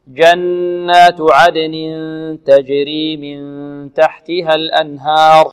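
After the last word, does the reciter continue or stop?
stops. The recitation stops after the last word.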